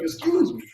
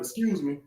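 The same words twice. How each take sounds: First: It is said forcefully, with extra push. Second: It is said gently and politely.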